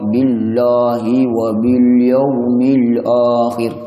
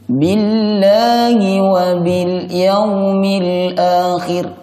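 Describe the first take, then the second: First: The sounds are pronounced heavy and thick. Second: The sounds are pronounced light and thin. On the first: The speaker calls it wrong. "tidak boleh dibaca tebal" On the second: The speaker calls it right. "Harus dibaca tipis"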